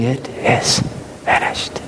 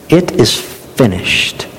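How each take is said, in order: First: The phrase is said faintly and weakly. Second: The phrase is shouted loudly. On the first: It expresses fear and defeat. The speaker calls it wrong. "you can barely hear what he's saying" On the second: It is a cry of victory. The speaker calls it right. "He yelled it, by the way. It's a victory cry"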